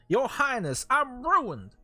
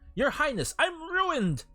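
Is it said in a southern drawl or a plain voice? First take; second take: southern drawl; plain voice. First: It is said in a southern drawl. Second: It is said in a plain, normal accent.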